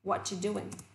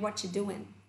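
First: The word 'are' is dropped in a shortened form. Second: The same.

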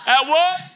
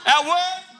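Both takes have the same delivery.

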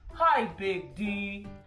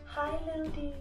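First: It is said in a big, loud voice. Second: It is said in a small, quiet voice.

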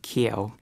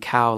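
First: The vowel starts fronted, sounding like keo. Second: The vowel is a plain standard diphthong.

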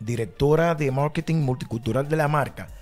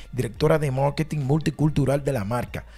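Both takes have the same delivery.

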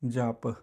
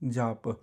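The two takes are said the same way.

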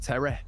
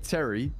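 First: Terry is said in a Manchester accent. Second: Terry is said in a non-Manchester accent. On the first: "he says Terry" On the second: "I say Terry"

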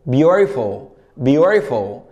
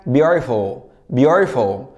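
The two takes are said the same way.

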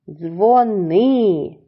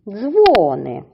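First: The stress is on the second syllable. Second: The stress is on the first syllable. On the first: It is a command to phone someone. "Слово має два склади і наголос на другому складі" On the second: It means bells. "Слово з двох складів наголошуємо на перший склад"

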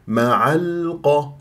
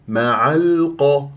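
No difference in how they are said.

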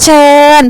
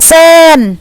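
First: The word begins with a ch sound. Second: The word begins with an s sound. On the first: This is the standard Thai form. "ภาษามาตรฐานคำว่าเชิญ" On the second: This is the Isan dialect form. "อีสานก็เป็นเซิน"

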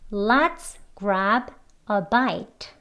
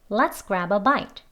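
First: Each word is said separately and clearly. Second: Grab and a are linked, said faster. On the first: "책 발음으로 3번 같이 해보겠습니다" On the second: "대화 발음으로 조금 빨리 해볼게요. grab 소리와 뒤에 어가 소리가 연결되어서요"

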